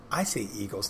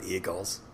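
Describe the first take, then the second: First: "Eagles" said as EE-gulls; long EE opening "Eagles"; own pronunciation of Eagles. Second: "Eagles" said the other, disowned way; rejected pronunciation of Eagles. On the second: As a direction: offer "Eagles" as the way not to say it. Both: Shown as a demonstration. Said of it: "I say Eagles, not Eagles".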